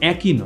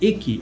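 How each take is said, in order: First: The first vowel sounds like 'a' in cat. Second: The first vowel sounds like 'e' in bed. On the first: The speaker calls it wrong. "নয়" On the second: The speaker calls it right. "এটা একই"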